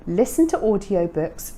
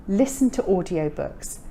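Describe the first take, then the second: No difference in how they are said.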